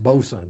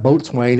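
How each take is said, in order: First: The word is shortened into two reduced syllables. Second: Both parts are fully pronounced, like boat and swain. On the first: The speaker calls it right. "it's bosun" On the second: The speaker calls it wrong. "it's not boatswain"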